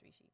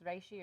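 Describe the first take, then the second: First: Rishi with long "ee" as in see; rishi pronounced REE-shee. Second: Reishi with long "ay" as in ray; reishi pronounced RAY-shee. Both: Shown as a demonstration. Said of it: "if it's pronounced reishi or rishi".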